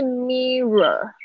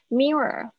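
First: The middle R sound is strong and emphasized. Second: The middle R sound is light and barely heard. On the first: The speaker calls it wrong. "不是mirror 不是你可以就是那个R 的声音不要那么强调" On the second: The speaker calls it right. "David 老师是怎么念mirror"

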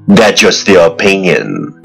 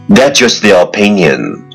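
Both takes have the same delivery.

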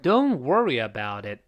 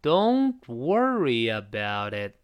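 First: It is said fast. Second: It is said slowly.

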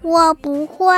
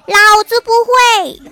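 First: It is said very quietly. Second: It is said loudly.

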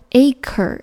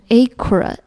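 First: The r sound comes at the very end. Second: The r sound comes before the end. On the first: The speaker calls it right. "读作acre" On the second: The speaker calls it wrong. "要注意不能读成acre"

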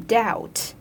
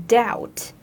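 Both takes have the same delivery.

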